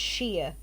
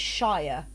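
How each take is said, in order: First: The vowel rhymes with fear. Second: The vowel rhymes with fire. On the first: The speaker calls it right. "you pronounce it like a like a varnish" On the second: The speaker calls it wrong. "Americans always pronounce it like you would Lord of the Rings"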